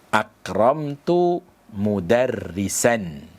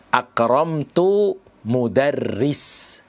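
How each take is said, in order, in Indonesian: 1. Kata terakhir diakhiri bunyi a. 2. Kata terakhir tidak diakhiri vokal apa pun. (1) "Dia harus dibaca nasab" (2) "dengan mensukun huruf mensukun kata mudarris"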